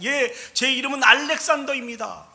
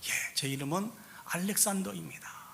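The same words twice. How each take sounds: First: It is said in a loud, frightened voice. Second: It is said in an even fainter, dying voice. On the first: The speaker is terrified. "겁에 질려 두려움에 큰 소리로 얘기했습니다" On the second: The speaker is even more frightened. "더 죽어가는 목소리로"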